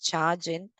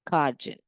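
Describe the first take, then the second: First: The word starts with a ch sound. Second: The word starts with a k sound.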